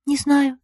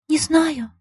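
First: A soft, higher, lost answer; first quiet reply to his plea. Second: A high, much softer, near-breathless answer; very quiet. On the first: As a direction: murmur it, unsure. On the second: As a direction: let it almost vanish. Юлька answers quietly, lost. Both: A narrator's reading.

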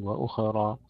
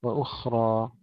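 First: وأخرى with the خ bounced like a qalqala letter; wrong bounced khaa. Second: وأخرى with a soft, whispered, smoothly flowing خ; correct soft khaa. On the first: Teacher warning students against a bounced خ in وأخرى. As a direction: show the error by bouncing the خ in وأخرى. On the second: Teacher modelling the correct وأخرى for students. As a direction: let the خ of وأخرى flow with no bounce. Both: Shown as a demonstration. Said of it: "لا نقول وأخرى".

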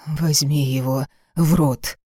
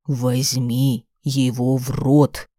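First: Said in the usual way. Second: Slow, hard order allowing no argument; rough command. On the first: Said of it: "Приказ грубый". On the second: Acted. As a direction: bear down on every word. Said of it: "Приказ грубый, не терпящий возражений".

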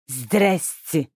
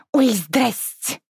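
First: Flat, slow mimicking hello; mocking echo. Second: High, slow sing-song hello; a teen sister caught off guard but brazen; cheeky greeting. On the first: Lis mockingly echoes the sister's greeting. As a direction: throw her greeting back at her. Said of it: "передразнил Лис". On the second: Acted. Caught sister greets the stranger, drawn-out sing-song. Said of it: "И даже почти не смутилась".

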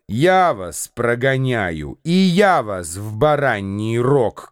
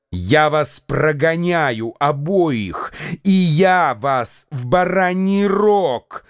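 First: Mocking echo. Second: Slow, rising yell of threat; mock-furious, climbing to higher. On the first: Andreev mocking Lambert, echoing his threat. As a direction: throw his own words back at him. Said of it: "крикнул Андреев". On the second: Lambert threatening both men, rising furious yell. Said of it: "завопил Ламберт". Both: A narrator's reading.

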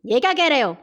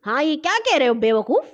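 First: Mildly cross question; angry. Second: Higher, lightly mock scolding; imitating mother. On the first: Mother scolds son for his offer, mildly angry. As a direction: scold with a touch of anger. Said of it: "غصے سے مجھے دیکھا اور بولی". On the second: Sister echoes mother's scolding, imitating her manner. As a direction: echo mother's telling-off. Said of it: "امی کے انداز میں". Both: A narrator's reading.

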